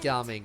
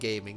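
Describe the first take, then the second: First: It is said unlike the English word gaming. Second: It is said like the English word gaming. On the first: This is the name's proper pronunciation. "it's pronounced gaming, right?" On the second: This is the popular joke pronunciation. "everyone's saying gaming"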